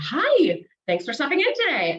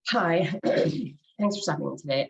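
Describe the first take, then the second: First: The voice sounds lively and energized. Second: The voice sounds flat and bored. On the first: The speaker is eager and ready to help. The speaker calls it right. "you know that I am energized and ready to help you" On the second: The speaker is not really happy to help. The speaker calls it wrong. "I am using my voice to convey maybe boredom"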